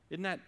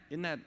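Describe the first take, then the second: No difference in how they are said.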